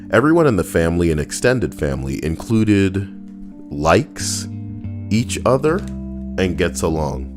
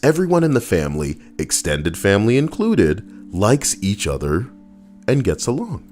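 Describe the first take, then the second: First: The phrase runs on without pauses. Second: Pauses set off extended family included.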